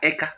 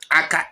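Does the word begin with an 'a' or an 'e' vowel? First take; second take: e; a. First: The word begins with an 'e' vowel. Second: The word begins with an 'a' vowel. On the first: This is the form used in parts of Ebonyi. "Ebonyi uses E" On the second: This is the speaker's own dialect form. "when we say Aka"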